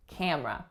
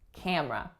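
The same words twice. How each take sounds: First: One syllable of the word is dropped. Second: One syllable of the word is dropped.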